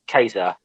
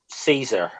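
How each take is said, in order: First: It is said the classical Latin way. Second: It is said the common English way. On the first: This is how it would be said in Latin. "it would be Kaiser" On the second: This is how people usually say it. "people say like um Caesar"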